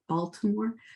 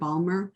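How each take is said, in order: First: Every syllable is said, including the T. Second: The middle is clipped, and the T is dropped. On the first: A trained, non-local way of saying it. "you'll notice I did say the T" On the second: The real local way of saying it. "the real way you say it is more like Balmer"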